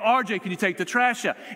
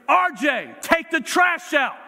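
First: It is said quietly. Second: It is said loudly, yelled.

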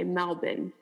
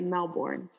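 First: It is said the Australian way. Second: It is said the American way.

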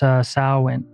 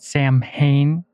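First: The word is not sounded out as spelled. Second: The word is sounded out as English spelling suggests. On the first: The speaker calls it right. "but it's not pronounced that way" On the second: The speaker calls it wrong. "A lot of people mispronounce it Samhain because in English that's how it's like sounds phonetically"

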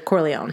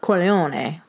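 First: It is said plainly, without Italian flair. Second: It is said with an Italian flair.

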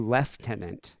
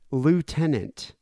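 First: It is said with the British pronunciation. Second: It is said with the American pronunciation.

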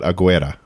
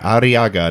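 First: The name is said with a g middle. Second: The name is said with a rolled r middle. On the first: The speaker calls it wrong. "I keep saying Aguera" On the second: The speaker calls it right. "It's Arriaga"

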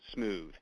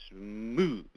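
First: The word is short, flat and even. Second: The word is drawn out and builds. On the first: It is just the plain word with no link to the cast. The speaker calls it wrong. "or you say it in a spelling bee, you know, smooth. That doesn't mean anything" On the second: It matches the cast: a slow start, then speeding up at the end. The speaker calls it right. "you say smooth like that, and the smooth part right at the very beginning is when you get the fly line and fly rod moving, and then right at the end where you crescendo"

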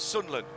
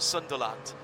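First: The middle d sound is dropped. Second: The middle d sound is pronounced. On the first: This is how people back home say it. The speaker calls it right. "We have the same with D's where I come from, and it's Sunderland" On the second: This is how outsiders say it. The speaker calls it wrong. "not Sunderland"

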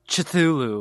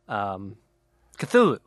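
First: The name is said with harsh, sneeze-like sounds. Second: The name is said plainly and smoothly. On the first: "Which sounds like a labored sneeze" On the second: "That's how I've always said it"

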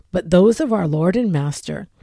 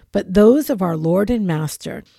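No difference in how they are said.

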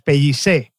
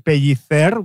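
First: It is said in Catalan with an s sound. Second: It is said in Spanish with a th sound.

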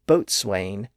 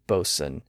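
First: A W sound begins the second syllable. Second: No W sound begins the second syllable. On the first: This follows the spelling. "they look like they should be pronounced boatswain" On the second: This is the modern form. "the W sound was lost... giving us modern-day bosun"

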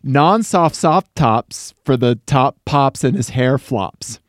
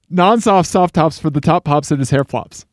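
First: It is said at a normal speed. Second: It is said very fast.

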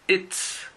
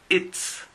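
The two takes are said the same way.

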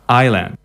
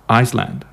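First: No s sound is heard in the middle. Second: An s sound is heard in the middle. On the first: The speaker calls it right. "But no, it's island" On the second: The speaker calls it wrong. "is often mispronounced and people say Iceland"

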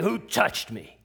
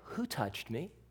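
First: The question sounds harsh and irritated. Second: The question sounds glad and excited. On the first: The asker is upset with the person. The speaker calls it wrong. "harsh and mean-spirited" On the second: The asker is delighted with the person. The speaker calls it right. "glad and happy and ecstatic"

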